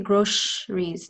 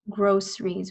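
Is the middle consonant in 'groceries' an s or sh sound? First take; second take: sh; s. First: The middle consonant is an sh sound. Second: The middle consonant is a plain s sound. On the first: The speaker calls it wrong. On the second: The speaker calls it right.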